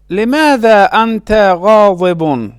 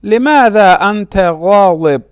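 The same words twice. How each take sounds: First: غاضب said "ghaa-di-bun"; full case ending. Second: غاضب said "ghaa-dib", stopping on b; pausal ending. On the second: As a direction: drop the "-un" from غاضب. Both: Shown as a demonstration.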